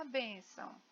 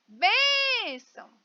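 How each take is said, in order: First: Said in the usual way. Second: "Bênção" hollered high with "Bên" held long; loud calling "Bênção", first syllable stretched. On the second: Shown as a demonstration. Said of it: "Então, eu chamo".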